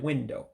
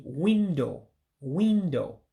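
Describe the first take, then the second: First: Said in the usual way. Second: Teacher showing window with an Igbo accent. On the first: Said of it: "instead of window". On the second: Shown as a demonstration. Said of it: "you say it with an accent".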